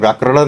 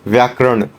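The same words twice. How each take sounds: First: The consonant before the end is a flap. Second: The consonant before the end is a retroflex nasal. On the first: The speaker calls it wrong. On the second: The speaker calls it right.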